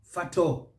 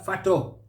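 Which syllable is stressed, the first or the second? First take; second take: second; second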